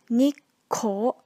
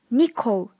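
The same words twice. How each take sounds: First: The middle consonant is held long, doubled. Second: The middle consonant is short, not doubled. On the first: The speaker calls it right. "The correct pronunciation will be" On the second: The speaker calls it wrong. "Some students pronunciate this word"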